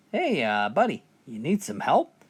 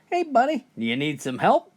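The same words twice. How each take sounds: First: Said in the usual way. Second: Yelled call. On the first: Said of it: "A fisherman asked him". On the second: Retold or imitated. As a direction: shout it out across the water. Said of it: "the captain yelled".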